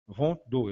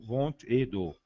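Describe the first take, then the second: First: Vingt-deux without the et, said as one word; Vingt-deux run straight together; Vingt-deux, no link word; correct French. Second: Vingt et deux with a clear et in the middle; wrong form. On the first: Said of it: "perde-se o E". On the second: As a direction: stress the et in vingt et deux as the mistake. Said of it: "eu não digo". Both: Shown as a demonstration.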